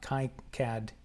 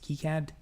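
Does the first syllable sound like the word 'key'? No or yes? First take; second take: no; yes. First: The first syllable does not sound like 'key'. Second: The first syllable sounds like the word 'key'. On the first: The speaker calls it wrong. "It's not KiCad" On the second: The speaker calls it right. "It's KiCad because it's named after some dude named Key"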